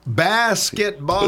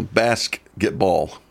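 First: Basketball slow with a rising tune; amused echo. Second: Basketball stretched out slowly; slow punchline. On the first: Retold or imitated. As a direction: repeat Basketball slowly, rising. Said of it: "repeats the punchline". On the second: Acted. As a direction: deliver basketball slowly, deadpan. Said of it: "no, no, punchline".

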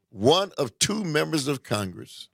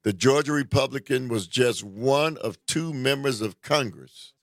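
First: One lifted and leaned on, the rest level; stress on one. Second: Said in the usual way. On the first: Shown as a demonstration. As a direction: hit one to say only two did it.

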